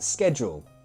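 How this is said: It is said with an American pronunciation. "in the U S, they pronounce it"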